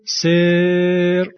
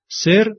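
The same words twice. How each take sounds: First: The vowel is drawn out long. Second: The vowel is short.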